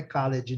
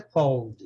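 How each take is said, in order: First: CALLED misread as "ka-LEH-djee"; wrong two-syllable pronunciation. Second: CALLED as one syllable, "kawld"; correct past-tense pronunciation. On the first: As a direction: sound out the E in CALLED, Brazilian style. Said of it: "Não é co-, não é called". (CALLED errado, como "caledji", pronunciando o E) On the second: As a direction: say CALLED with a silent E and final D. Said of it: "Agora, no passado é called". (CALLED correto, numa sílaba só, com D final) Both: Shown as a demonstration.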